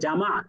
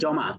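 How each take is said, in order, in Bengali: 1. প্রথম স্বরধ্বনিটি খোলা 'ah' ধ্বনি। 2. প্রথম স্বরধ্বনিটি গোলাকার 'aw' ধ্বনি। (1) "তিন নাম্বার শব্দের আরবি উচ্চারণ হচ্ছে জামা" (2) "বাংলাতে আমরা বলি জমা"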